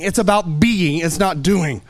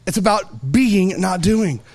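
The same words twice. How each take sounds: First: Said in the usual way. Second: "being" and "doing" each stressed, said slowly; slow down and lean on "being" and "doing"; slow emphatic restatement. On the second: Shown as a demonstration.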